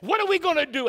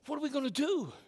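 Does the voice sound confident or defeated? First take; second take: confident; defeated. First: It sounds confident and determined. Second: It sounds shaky and defeated.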